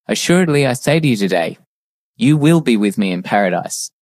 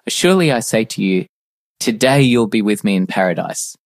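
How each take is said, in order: First: The pause comes after the word today. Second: The pause comes before the word today.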